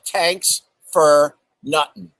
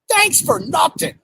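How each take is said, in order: First: The first word begins with a t sound. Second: The first word begins with a th sound. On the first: The speaker calls it right. "It's actually tanks for nothing" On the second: The speaker calls it wrong. "it's not thanks for nothing"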